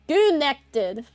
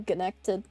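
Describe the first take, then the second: First: "Goonected" said with a hard G in place of "con"; pun pronunciation. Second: Said in the usual way. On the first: Shown as a demonstration. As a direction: turn "connected" into "Goonected".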